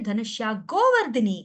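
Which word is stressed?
Govardhani. The stress is on the second name. The speaker calls it right.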